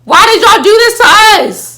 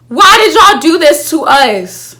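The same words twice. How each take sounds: First: Much higher and louder, a wailing protest; anguished outcry. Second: Louder and slow, stretching every word; a dragged-out despairing plea; drawn-out outcry. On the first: Fan crying out to the writers, high loud wail. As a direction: throw it at the writers like a betrayed fan. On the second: Fan pleading with the writers, slow loud lament. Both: Real, not acted.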